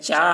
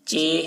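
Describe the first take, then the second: First: The letter name ends in an aa-like vowel. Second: The letter name ends in an e-like vowel. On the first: The speaker calls it wrong. "इस तरीके से मारूफ नहीं पढ़ा गया है" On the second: The speaker calls it right. "मजहूल पढ़ा गया है"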